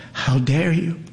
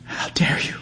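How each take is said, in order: First: Snarling. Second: Hissed under the breath; How dare you hissed in a voiceless whisper; whispered snarl. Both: A narrator's reading. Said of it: "She snarls".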